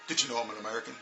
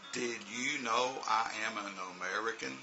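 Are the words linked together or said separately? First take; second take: linked; separately. First: The words are reduced and linked together smoothly. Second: Each word is said separately, without linking. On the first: The speaker calls it right. "It's like" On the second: The speaker calls it wrong. "we never talk like that"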